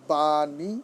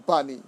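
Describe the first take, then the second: First: "বাণী" very slow, as baa-nee; drawn-out syllables. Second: Said in the usual way. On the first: Shown as a demonstration. Teacher giving a spelling example, "বাণী" slowly drawn out. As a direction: stretch both vowels of "বাণী".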